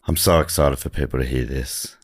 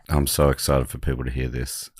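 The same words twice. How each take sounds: First: It is said with very high, exaggerated excitement. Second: It is said with little excitement or energy.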